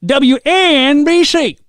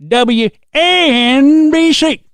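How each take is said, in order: First: High, slow, stretched-out call letters; drawn-out DJ station ID; radio call letters. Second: High, very slow stretched letters; overdone station ID demo; wrong radio ID take. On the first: Retold or imitated. Repeating Scott's joke about fake radio voices, stretched call letters. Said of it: "Scott's saying". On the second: Shown as a demonstration. Showing the wrong way to say call letters, stretched out. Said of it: "No, no, not like that".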